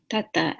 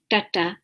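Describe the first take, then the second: First: "tata" with the tongue touching the teeth; light dental Ts in "tata", tongue forward. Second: "tata" with the tongue drawn back; hard curled-back Ts in "tata"; retroflex T. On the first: Teacher contrasting it with the retroflex, dental T. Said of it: "a dental T". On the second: Teacher contrasting it with the dental T, retroflex. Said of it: "is, is back". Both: Shown as a demonstration.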